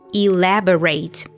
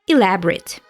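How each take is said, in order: First: The word is said with four syllables. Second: The word is said with three syllables. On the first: Give more details or explain further. "Elaborate as a verb, so four syllables" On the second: Detailed and complicated. "elaborate as an adjective, only three syllables"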